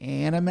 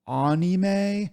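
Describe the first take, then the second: First: It is said with an American pronunciation. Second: It is said with a Japanese pronunciation. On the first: "I say anime" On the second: "instead of anime"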